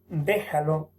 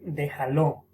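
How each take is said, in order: First: The stress falls on the usual syllable. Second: The stress is moved to another syllable. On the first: The speaker calls it right. "En vez de decir" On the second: The speaker calls it wrong. "Desplazamiento del acento"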